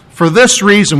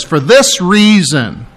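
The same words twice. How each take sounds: First: Said in the usual way. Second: For this reason drawn out slowly with the weight on this; slow, stressed reading. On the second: Shown as a demonstration. Preacher reading the verse to his congregation, slow and stressed. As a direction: read "For this reason" slowly, leaning on this. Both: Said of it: "Look what it says".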